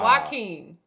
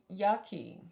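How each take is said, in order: First: The name begins with a 'wa' sound. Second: The name begins with a 'ya' sound. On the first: The speaker calls it right. "It's Wa" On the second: The speaker calls it wrong. "you said ya"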